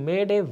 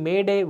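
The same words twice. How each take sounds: Both takes have the same delivery.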